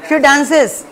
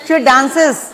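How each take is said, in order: The two takes are said the same way.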